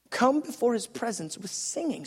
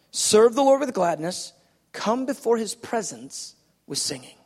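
First: Quieter repeat of the verse; scripture reading, softer repeat. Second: Scripture reading. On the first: Preacher repeating the verse to the congregation, softer. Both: Shown as a demonstration. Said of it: "look at this, verse two".

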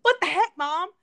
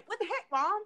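First: Loud, high cheeky blurt; loud teasing what the heck; mock outburst. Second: Lightly voiced Southern teen; mild Southern imitation; light Southern twang. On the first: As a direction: shout it out as a joking kid. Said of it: "he said it in, like, it, not in a disrespect". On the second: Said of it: "it was so Southern sounding".

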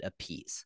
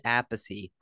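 First: [name] said "a-PIECE", two syllables; brother's pronunciation. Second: [name] said "AP-pih-see"; three-syllable pronunciation. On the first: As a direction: stress the end of [name], like "a piece". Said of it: "Your brother, uh, pronounces it [name]". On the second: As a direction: stress the first syllable of [name], ending in "see". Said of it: "You pronounce it [name]". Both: Shown as a demonstration.

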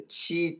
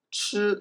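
First: チー as a long, higher "chee"; romaji-influenced mistake. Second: チュー as a drawn-out "chr", not "chee"; heard Chinese sound. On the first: Retold or imitated. Teacher imitates learners drifting to romaji, チー as "chee". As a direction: say チー with a clear Japanese "ee". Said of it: "それに引きずられて". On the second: Shown as a demonstration. Teacher models what learners hear, チュー as "chr". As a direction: say チュー with a dark retroflex vowel. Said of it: "音を聞いて".

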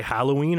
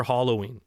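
First: Halloween with the "a" of "hat"; flat-A Halloween. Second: Halloween with an "ah" vowel; open-A Halloween. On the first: Host asking the guys, Halloween with "hal". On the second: Host asking the guys, Halloween with "hollow". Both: Shown as a demonstration. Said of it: "Halloween or Halloween?".

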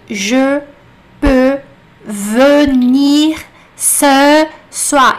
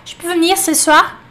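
First: "Je peux Venir ce soir" loud and very slow, word by word; over-articulate each E in "Je", "Venir", "ce", with gaps; sílabas separadas. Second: "Je peux venir ce soir" run together as "ch'peu v'nir ce soir"; tudo junto. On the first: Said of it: "você não vai ouvir". (bem devagar e forte, cada E pronunciado) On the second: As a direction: swallow the E in "Je" and "venir", a bit higher. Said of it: "Eles vão juntar tudo". (tudo junto, engolindo os E) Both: Shown as a demonstration.

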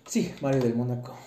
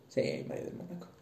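First: Said in the usual way. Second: Softly whispered, higher pitch; quiet whispered confirmation; whispered repeat. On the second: Real, not acted. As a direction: whisper the name back to yourself.

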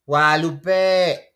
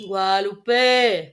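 First: Drawn-out shouted name, very slow; long calling shout. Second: Slow drawn-out call, a bit louder; long calling shout. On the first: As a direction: call the name across the house, stretching it. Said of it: "Así". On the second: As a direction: shout the name slowly across the room. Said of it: "Pero sostén la E". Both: Shown as a demonstration.

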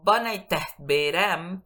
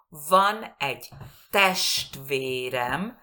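First: "Van a test verem" with a b-like v and an aspirated t in "test"; wrong learner pronunciation. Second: "van egy test verem" slow and loud, a clear fricative v in "van" and sh in "test"; correct pronunciation. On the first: Teacher imitates a mistake students make. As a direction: mispronounce it like a Spanish learner. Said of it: "no me entiende nadie". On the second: Teacher models the correct phrase for students. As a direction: slowly stress "van" and "test". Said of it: "bien pronunciado". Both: Shown as a demonstration.

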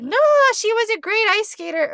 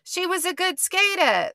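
First: Put-on loud, high-pitched Midwestern accent; Midwestern mom. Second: Put-on high Jersey accent, dropped r's; New Jersey mom. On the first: Imitating a mom praising her skater daughter, Midwestern accent. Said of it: "I'm being Midwestern". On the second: Imitating a mom praising her skater daughter, Jersey accent. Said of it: "they're in New Jersey".

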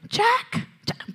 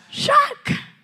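First: Rose calling Jack. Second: Put-on "Jack" cried very high in an American accent, drawn out; hammed-up American movie call of "Jack"; American-accented cry. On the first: Retold or imitated. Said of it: "ella le dice". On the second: Preacher imitating Rose calling Jack in an American accent. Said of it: "póngale acento gringo".

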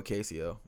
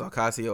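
First: Ocasio said as "oh-KAY-see-oh"; alternative pronunciation. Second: Ocasio said as "oh-KAH-see-oh"; first pronunciation. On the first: Host offering another guess at the surname, Ocasio with "KAY". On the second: Host unsure of the congresswoman's surname, Ocasio with broad "KAH". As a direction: say Ocasio with an AH in the stressed syllable. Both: Shown as a demonstration. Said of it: "I don't know if it's Ocasio or Ocasio".

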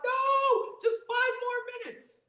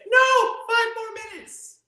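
First: Put-on very high childish whine; whiny kid. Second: Put-on high, slow, loud child's whine; a child whining at bedtime for more time; whiny kid. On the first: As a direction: plead like a kid refusing bedtime. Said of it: "I was like". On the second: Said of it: "they say".

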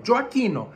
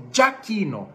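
First: "Gioacchino" in Italian, Djo-a-KI-no with the o; Italian pronunciation. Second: "Giacchino" with the o dropped, Dja-KI-no; American mispronunciation. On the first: Teacher shows the Italian name, correct pronunciation. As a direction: say "Gioacchino" with all four syllables. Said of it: "é Joaquim em italiano". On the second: Teacher imitates Americans saying the Italian name, mispronunciation. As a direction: say "Giacchino" in three syllables. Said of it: "falta o O". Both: Shown as a demonstration.

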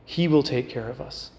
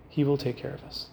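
First: Said in the usual way. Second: Repeated much softer, almost to herself; a soft echo of faith. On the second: Retold or imitated. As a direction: let it sink in, hushed. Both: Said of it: "Mary's heart is constantly saying".

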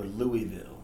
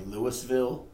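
First: Louisville said as "Louie-ville"; "Louisville" with an EE before the ville; Louisville with silent S. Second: Louisville said as "Lewis-ville"; "Louisville" with an audible S before the ville. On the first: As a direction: drop the S in Louisville, LOO-ee-vill. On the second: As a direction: sound the S in Louisville, LOO-iss-vill. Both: Shown as a demonstration. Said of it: "How do you pronounce the capital".

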